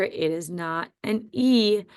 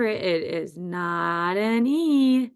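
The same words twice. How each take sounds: First: Said in the usual way. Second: "it is not an E" very slow, words stretched; drawn-out reminder. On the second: Shown as a demonstration. Teacher reminding first graders of the spelling, drawn out.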